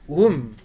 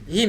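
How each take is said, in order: First: The ending is said with a u vowel. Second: The ending is said with an i vowel. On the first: The speaker calls it wrong. "et non pas Heidi, hum" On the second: The speaker calls it right. "Beina Heidi, him"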